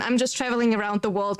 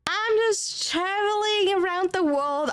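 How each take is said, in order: First: Said in the usual way. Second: Higher, slower, a dreamy hammed-up drawl; mock-grand traveller. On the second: Joking to chat that she travels the world, mock-dreamy. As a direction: play the mysterious globetrotter, tongue in cheek. Repeats the joke line, hammed up.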